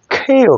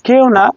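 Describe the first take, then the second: First: "কেউ" as k-hyoo, with a puff on the k; high, stretched airy "কেউ"; aspirated English Q. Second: Said in the usual way. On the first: Shown as a demonstration. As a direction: burst the k in "কেউ". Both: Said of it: "কেউ না".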